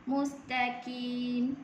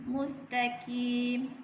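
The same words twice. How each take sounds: The two takes are said the same way.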